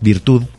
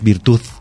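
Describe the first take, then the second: First: The word ends with a soft D sound. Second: The word ends with a Z sound. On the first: The speaker calls it right. "La palabra es virtud" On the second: The speaker calls it wrong. "no es virtud"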